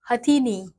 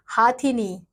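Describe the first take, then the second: First: हथिनी read with short "ha" as the correct spelling; correct form. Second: हाथिनी read with long "haa" as the incorrect spelling; wrong form. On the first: Teacher gives the class the correct हथिनी. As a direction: say the right form हथिनी with a short first vowel. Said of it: "एक तरफ शुद्ध शब्द". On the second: Teacher reads the incorrect word हाथिनी to her class. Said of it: "अशुद्ध शब्द दिए गए हैं". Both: Shown as a demonstration.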